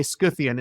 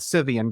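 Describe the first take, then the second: First: "Scythian" with an SK sound, SKITH-ee-an; hard K after the S in "Scythian". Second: "Scythian" with a silent C, SITH-ee-an; plain S at the start of "Scythian"; soft-C Scythian. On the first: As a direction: say "Scythian" as Skythian with a K. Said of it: "That's why I say". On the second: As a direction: say "Scythian" as Sithian, no K. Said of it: "instead of Scythian". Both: Shown as a demonstration.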